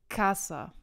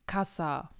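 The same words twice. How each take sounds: First: The stress is on the first syllable. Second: The stress is on the last syllable. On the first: The speaker calls it right. "Also die Betonung ist auf der ersten Silbe bzw. auf der vorletzten Silbe" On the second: The speaker calls it wrong. "Man sagt ja nicht Kassa, ne? Das wäre falsch"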